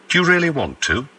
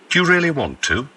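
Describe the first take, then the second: No difference in how they are said.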